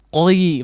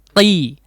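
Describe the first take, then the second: First: The vowel glides from an o sound into i. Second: The vowel goes straight to a clear i sound. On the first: The speaker calls it wrong. "Tidak qoi" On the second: The speaker calls it right. "Langsung dikasrohkan"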